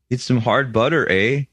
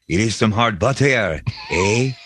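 First: It is spoken in a plain Canadian English accent. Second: It is spoken in a French Canadian accent. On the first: "here's his Canadian accent" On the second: "French Canadian accent would be like"

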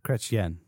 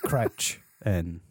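First: The name ends with a 'yen' sound. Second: The name ends with a plain 'n' sound. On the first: The speaker calls it right. "There you go" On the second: The speaker calls it wrong.

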